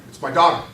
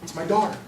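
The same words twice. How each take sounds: First: Louder, knowing, wry tone; the amused cynic father takes over; knowing, amused dad expecting trouble; wry other side. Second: Concerned, gentle dad; a caring father's first thought; worried father. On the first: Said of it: "the other side of me is going". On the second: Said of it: "Now I'm of two minds about this phone call". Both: Retold or imitated.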